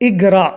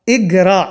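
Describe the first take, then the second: The two takes are said the same way.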